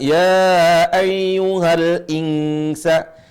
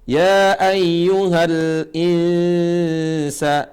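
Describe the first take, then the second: First: The n is said clearly before the s. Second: The n is hidden as a nasal before s. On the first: The speaker calls it wrong. "Cara bacanya bukan" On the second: The speaker calls it right. "Nun mati bertemu dengan sin"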